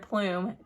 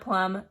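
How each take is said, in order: First: The word rhymes with fume. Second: The word rhymes with drum. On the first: The speaker calls it right. "they're plume" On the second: The speaker calls it wrong. "They're not plum"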